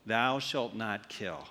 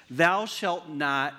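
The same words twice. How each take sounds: First: "Thou shalt not kill" धीमे, नीची आवाज़ में; slow solemn recital. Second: "Thou shalt not" धीरे, अधूरा छोड़ कर; slow, unfinished quote. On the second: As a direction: stretch "Thou shalt not" and leave it hanging. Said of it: "what do you think went in here". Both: Shown as a demonstration.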